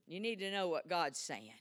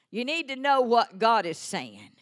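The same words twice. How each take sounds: First: Said in the usual way. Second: Louder emphatic preaching, KNOW pushed; louder repeat. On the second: Shown as a demonstration. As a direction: drive it home with force. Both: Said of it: "repeated louder".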